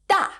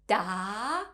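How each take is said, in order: First: The pitch falls sharply from high to low. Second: The pitch rises steadily to a high level. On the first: "The fourth tone, has a falling tone" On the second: "The second tone, has a rising tone"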